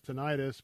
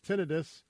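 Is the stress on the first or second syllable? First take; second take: second; first. First: The stress is on the second syllable. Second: The stress is on the first syllable. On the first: The speaker calls it wrong. "A lot of people mispronounce it as tinnitus" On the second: The speaker calls it right. "but it's tinnitus"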